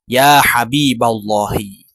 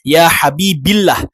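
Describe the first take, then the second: First: The vowel after Habib is a. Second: The vowel after Habib is i. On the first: The speaker calls it right. "Tetapi dia dibaca" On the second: The speaker calls it wrong. "atau tidak dibaca"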